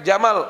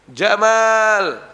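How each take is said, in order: First: The vowel of the second syllable is short. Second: The vowel of the second syllable is long. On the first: The word means camel. "Kalau meme-nya pendek" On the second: The name means handsome. "panjangin meme-nya"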